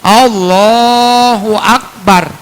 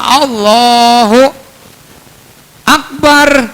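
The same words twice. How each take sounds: First: The two words are joined with no pause. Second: There is a long pause between the words.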